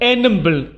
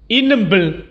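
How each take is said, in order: First: The word begins with an 'e' vowel. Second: The word begins with an 'i' vowel. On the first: This is the form heard in certain local areas. "vous pouvez entendre enembl" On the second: This is the usual form of the word. "au lieu de dire inembl pour désigner l'œil"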